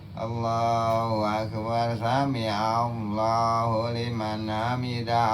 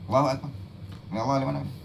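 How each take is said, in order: First: The phrases run on without any stopping between them. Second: There is a brief stop between the phrases. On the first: The movement is slow but never comes to rest. The speaker calls it wrong. "Malah nggak ada berhentinya" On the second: Each movement comes to rest before the next. The speaker calls it right. "itu masih ada berhentinya"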